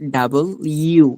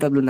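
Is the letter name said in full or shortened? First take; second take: full; shortened. First: The name is said in full as two parts. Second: The name is squeezed into a short form. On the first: The speaker calls it right. "এটা হচ্ছে ডাবল ইউ" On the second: The speaker calls it wrong. "এটা ডাব্লু বলবে না, অনেকে ডাব্লু বলে"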